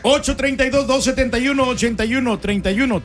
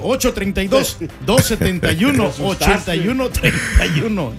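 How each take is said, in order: First: The number is said fast. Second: The number is said slowly.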